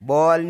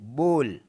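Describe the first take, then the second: First: The vowel is not a plain 'o' sound. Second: The vowel is a plain 'o' sound. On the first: The speaker calls it wrong. "बॉल नहीं" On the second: The speaker calls it right. "इसमें ओ जैसी आवाज़ है"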